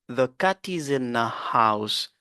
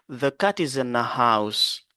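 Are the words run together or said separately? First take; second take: run together; run together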